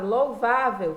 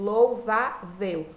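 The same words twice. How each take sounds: First: Said in the usual way. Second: "louvável" dito sílaba por sílaba, lou-va-vel; separado em sílabas. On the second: Shown as a demonstration. ("louvável" silabado, com pequenas pausas entre lou, va e vel) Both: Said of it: "Última sílaba, penúltima sílaba".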